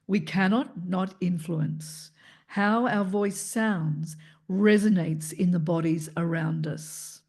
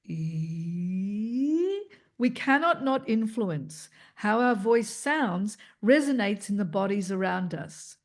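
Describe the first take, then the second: First: It is spoken in a low, deep register. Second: It is spoken in a brighter, higher register. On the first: "the lower range" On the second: "the middle register of our voice, which is where the brightness and the highlight is"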